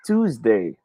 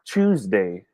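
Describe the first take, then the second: First: "Tuesday" with a clean initial t; tooz-day. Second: "Tuesday" with a ch onset; choose-day. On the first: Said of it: "It's pronounced as Tuesday". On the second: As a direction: say "Tuesday" slowly as CHOOZ-day. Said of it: "not Tuesday". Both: Shown as a demonstration.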